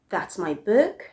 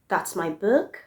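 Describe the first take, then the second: Both takes have the same delivery.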